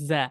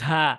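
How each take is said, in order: First: The consonant is pressed firmly with little air. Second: The consonant is released with a strong puff of air. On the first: The speaker calls it right. "কিন্তু চাপ দিতে হবে" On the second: The speaker calls it wrong. "Not ঝা। এভাবে বলবো না, অনেক বেশি পরিমাণ বাতাস বের করবো না"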